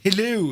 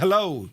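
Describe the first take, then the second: First: It is said in a strange put-on accent. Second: It is said in a plain everyday accent. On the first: It imitates how someone talks when boating. "he kind of puts on some sort of a strange accent" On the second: It is the ordinary way of greeting. "instead of saying hello"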